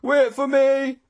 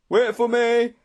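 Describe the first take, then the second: First: Very high, loud cry; panted plea, more desperate. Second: High, loud desperate call; panted plea. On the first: Straggler left behind on the hill, desperate cry. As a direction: wail it out urgently. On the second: Straggler begging friends to wait, panting plea. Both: A narrator's reading. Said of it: "a voice behind us panted".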